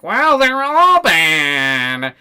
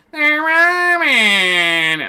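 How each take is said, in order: First: High, very slow and louder, droning; higher, louder mock-solemn drawl; mock Wick voice. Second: Much higher, very slow and loud whine; very high, very slow mocking wail; mock Wick voice, even higher. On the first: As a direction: stretch it out like a dim sage. Mocking Wick's answer. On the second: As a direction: squeal it out in ridicule.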